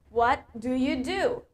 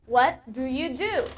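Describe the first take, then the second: No difference in how they are said.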